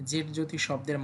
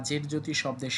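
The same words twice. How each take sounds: The two takes are said the same way.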